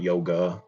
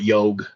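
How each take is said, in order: First: The word ends with a final 'a' vowel. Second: The word ends on a consonant, without final vowel. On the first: "not yoga" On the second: "they just call it yog"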